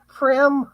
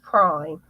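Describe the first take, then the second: First: The vowel is short, like 'prim'. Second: The vowel is long, like 'prime'. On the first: The speaker calls it wrong. "I just mispronounced it" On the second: The speaker calls it right. "It's pronounced prime"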